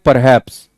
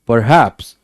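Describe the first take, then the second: First: The stress falls on the first syllable. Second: The stress falls on the second syllable. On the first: The speaker calls it wrong. "It's not like perhaps" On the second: The speaker calls it right. "पर पे कम जोर है, haps पे ज्यादा है"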